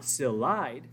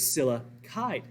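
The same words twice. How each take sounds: First: "silide" said as the wrong two-syllable ending; wrong form. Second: "silicide" said slowly with all three syllables, si-li-cide; correct form. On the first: Teacher shows students the wrong name, plain. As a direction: clip it short to "silide" like the mistake. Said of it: "So silicon is not silide". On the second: Teacher corrects the name for students, slow and careful. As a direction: draw out "silicide" so "sili" stands clear. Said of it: "Notice the first two syllables, sila". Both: Shown as a demonstration.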